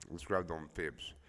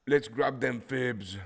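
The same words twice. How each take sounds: First: Said in the usual way. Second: High, loud, drawn-out call; playful holler. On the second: Pretend. Trader rallying viewers to grab fibs, playful holler. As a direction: holler it slowly, pitched up.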